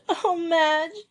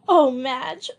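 First: Exhausted sob. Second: High sobbing cry with a catch of laughter; exhausted sob. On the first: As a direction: plead through the tears, drained. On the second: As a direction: sob it out, worn out. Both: A narrator's reading. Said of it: "sobbed Joey exhaustedly".

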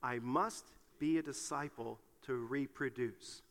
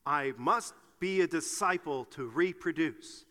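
First: Slow, low and soft recitation; measured, subdued lead for others to repeat. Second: Slow, firm recitation with gusto. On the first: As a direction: say it slowly and softly for everyone to follow. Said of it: "would you say that with me". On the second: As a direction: say it emphatically, word by word. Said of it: "let's say it with gusto". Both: Shown as a demonstration.

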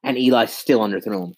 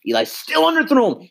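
First: Said in the usual way. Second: Much higher, incredulous repeat; exasperated disbelief. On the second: Real, not acted. Fan replays Eli's bad throw, incredulous and much higher.

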